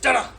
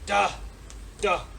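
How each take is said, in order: First: The two sounds run together without a gap. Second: There is a gap between the two sounds.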